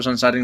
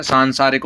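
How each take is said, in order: First: सांसारिक with a short first vowel, "sansaarik" as in "sun"; mispronunciation shown. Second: सांसारिक with a long nasal आ in the first syllable; correct pronunciation. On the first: Teacher showing the faulty form, सांसारिक with short first vowel. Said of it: "वो सांसारिक नहीं होता". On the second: Teacher giving students the right form, सांसारिक with long "saan". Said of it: "सांसारिक होता है, वो सांसारिक नहीं होता". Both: Shown as a demonstration.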